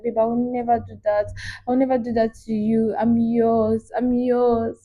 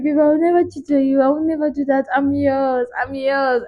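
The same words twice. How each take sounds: First: Soft, tender lover's voice; sweet and loving. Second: Sweet and loving. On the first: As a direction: melt him with soft promises. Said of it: "Very sweet and loving". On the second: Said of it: "She was like". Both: Retold or imitated.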